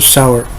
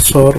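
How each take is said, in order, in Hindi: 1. यह शब्द दो अक्षरों में बोला जाता है। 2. यह शब्द एक छोटे अक्षर में बोला जाता है। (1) "इसको सावर बोलना कहना पड़ता है" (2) "सौर बोलना गलत है"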